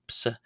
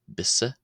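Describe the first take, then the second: First: It begins with a P sound. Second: It begins with a B sound. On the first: "or as Pse" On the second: "It can be pronounced as Bisse"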